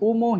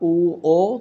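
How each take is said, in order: First: It is said with an m sound in the middle. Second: It is said with no m sound at all. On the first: The speaker calls it wrong. "আমার অনেক student এটাকে উমো হিসেবে বলে" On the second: The speaker calls it right. "সঠিক উচ্চারণটা উ ও"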